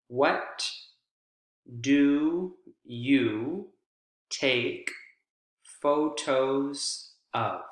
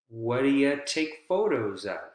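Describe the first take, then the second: First: The word 'you' is said fully and separately. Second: The word 'you' is reduced and linked to 'do'.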